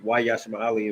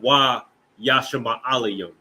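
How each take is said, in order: First: It is said casually and flowing. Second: It is said slowly and dramatically.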